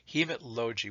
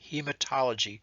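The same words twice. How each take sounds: First: No vowel is heard between 'hemat' and 'logy'. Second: An 'o' vowel is heard between 'hemat' and 'logy'. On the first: The speaker calls it wrong. "something is wrong" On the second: The speaker calls it right. "that sounds good"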